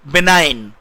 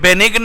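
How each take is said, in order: First: The g is silent and the vowel is long. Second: The g is sounded in the middle of the word. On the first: The speaker calls it right. "इसका उच्चारण ध्यान सुनिए" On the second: The speaker calls it wrong. "ये बेनिग्न नहीं है"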